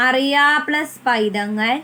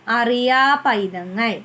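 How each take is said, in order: First: അറിയാ and പൈതങ്ങൾ said as two separate words; words kept apart. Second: അറിയാ പൈതങ്ങൾ run together slowly as one joined phrase; joined words, slower. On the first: Teacher showing children the two words before joining, said separately. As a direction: split അറിയാ from പൈതങ്ങൾ clearly. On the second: Teacher showing children the joined form, slow and careful. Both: Shown as a demonstration.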